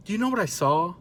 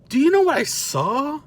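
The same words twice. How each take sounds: First: Softer, slightly raised "Do you know what I saw?"; "saw" left hanging on a rise; suspenseful repeat. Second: High-pitched comic "Do you know what I saw?"; mounting disbelief. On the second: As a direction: send the question way up for the big reveal. Third ask, building to the reveal. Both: Real, not acted.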